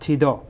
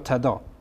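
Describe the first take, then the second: First: The first vowel is an 'i' sound. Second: The first vowel is an 'a' sound. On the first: This follows the vowel marked in the written text. "اینجا کسره داده" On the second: This is how Christians themselves say it. "تلفظی که خود مسیحی ها هم میکنن تدا هست"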